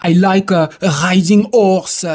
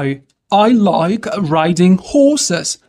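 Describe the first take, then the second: First: English with a thick French accent, dropped H; French learner's English, uvular R, silent H in "horse". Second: Slow, careful English with a breathed H in "horses"; drawn-out teacher's English, H clearly sounded in "horses"; correct English pronunciation. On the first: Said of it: "On dit pas horse". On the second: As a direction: model "horses" with an audible H and English R. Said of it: "vous aurez ce son". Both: Shown as a demonstration.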